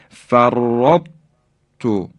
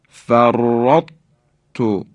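No difference in how they are said.

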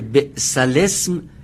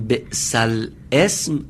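First: The words are run together as bislism. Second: The words are pronounced separately as bi's al-ism. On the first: The speaker calls it right. "بسلسم باید این چنین که الان خوندیم خونده بشه" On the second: The speaker calls it wrong. "اگر بگیم بئس الاسم غلطه"

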